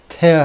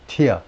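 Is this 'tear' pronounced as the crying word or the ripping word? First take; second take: ripping; crying. First: It is pronounced as the word for ripping. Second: It is pronounced as the word for eye-water. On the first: It means to rip apart. "tear tear 하면 찢다예요" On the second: It names drops from the eyes. "tear라고 발음을 하면 눈물이 되고"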